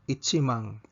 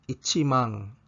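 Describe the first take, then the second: No difference in how they are said.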